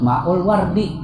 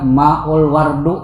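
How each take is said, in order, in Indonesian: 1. Kata terakhir berakhir dengan vokal i. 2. Kata terakhir berakhir dengan vokal u. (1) "Harus maul wardi" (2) "Kada boleh dibaca maul wardu, kada boleh"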